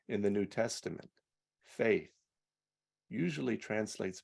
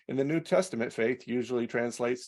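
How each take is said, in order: First: It is read with feeling and weight. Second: It is read in a flat, careless way. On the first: The words carry emotive power. The speaker calls it right. "Our words can carry power" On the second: The words are just words without meaning carried. The speaker calls it wrong. "I can just say it in a way the words they're just words"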